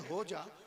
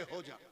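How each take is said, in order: First: It is said lovingly, like a lover's plea. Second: It is said angrily, like a stern command.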